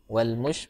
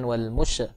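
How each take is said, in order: First: The sh sound is held steady without a bounce. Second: The sh sound is released with a bounce. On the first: The speaker calls it right. "jangan dipantulkan lah, ditahan" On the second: The speaker calls it wrong.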